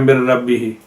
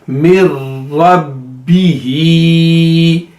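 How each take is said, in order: First: The doubled consonants are passed over softly and quickly. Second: The doubled consonants are each held for two counts. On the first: The speaker calls it wrong. "बिल्कुल सॉफ्टली पढ़ जाते हैं" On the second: The speaker calls it right. "रा को टू time और उसके बाद बी को टू टाइम"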